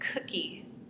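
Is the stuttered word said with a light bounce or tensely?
tense. The word is blocked and said with strained tension. The speaker calls it wrong. "the first time we said cookie, we were really tense and we had a moment of disfluency"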